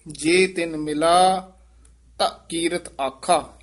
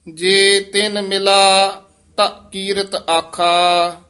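First: A clear full stop after ਆਖਾ; ਆਖਾ ਤੇ ਵਿਸਰਾਮ; pause after ਆਖਾ. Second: Said in the usual way. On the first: Shown as a demonstration. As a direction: rest on ਆਖਾ before going on. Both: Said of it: "ਇੱਥੇ ਵਿਸਰਾਮ".

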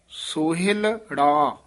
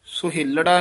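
First: ਸੋਹਿਲੜਾ split as ਸੋਹਿਲ, then ੜਾ; with a break. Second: ਸੋਹਿਲੜਾ said as one joined word; wrong way, run together. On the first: Teacher showing the correct split ਸੋਹਿਲੜਾ. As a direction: pause lightly between ਲ and ੜਾ in ਸੋਹਿਲੜਾ. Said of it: "ਲੱਲੇ ਤੇ ੜਾੜੇ ਦੇ ਵਿੱਚ dash ਦੇਣੀ ਹੈ". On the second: Teacher showing the wrong joined ਸੋਹਿਲੜਾ. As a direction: say ਸੋਹਿਲੜਾ without the break. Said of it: "ਸੋਹਿਲੜਾ ਨਹੀਂ ਕਹਿ ਦੇਣਾ". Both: Shown as a demonstration.

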